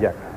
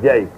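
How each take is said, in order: First: The vowel is a short 'a', as in Jack. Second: The vowel sounds like 'ay', as in Jake. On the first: The speaker calls it right. "está muy bien" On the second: The speaker calls it wrong. "yo digo es Jake, no es Jake"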